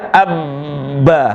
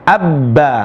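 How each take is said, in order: First: The doubled b is held long. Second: The doubled b is held briefly. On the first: The speaker calls it wrong. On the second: The speaker calls it right.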